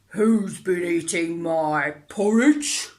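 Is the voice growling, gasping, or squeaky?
growling. It is said in a deep growl.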